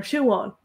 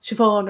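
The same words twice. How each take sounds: First: Siobhan as "shoo-AWN", no v; other pronunciation. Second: Said in the usual way. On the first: Shown as a demonstration. Teacher showing both ways from the archive, variant pronunciation. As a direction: glide through a w in Siobhan, "shoo-wawn". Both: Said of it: "they pronounce it both ways".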